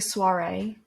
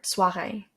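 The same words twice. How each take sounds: First: "soirée" with an ordinary English R; English-style pronunciation. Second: "soirée" with a throaty French R; French pronunciation. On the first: Vlogger giving an example of a borrowed word, English-style "soirée". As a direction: say "soirée" as an English loanword, R not in the throat. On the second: Vlogger showing viewers that it's a French word, French-accented "soirée". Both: Shown as a demonstration. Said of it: "that's a French word".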